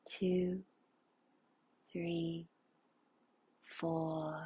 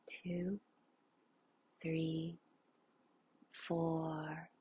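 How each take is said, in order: Both takes have the same delivery.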